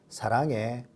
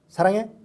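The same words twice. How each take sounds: First: It is said at a normal speed. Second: It is said quickly.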